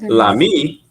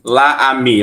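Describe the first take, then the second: First: The article's vowel is dropped and joined on. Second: The article's vowel is kept before the noun. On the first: The speaker calls it right. "O mesmo som" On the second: The speaker calls it wrong. "Eu não posso falar assim"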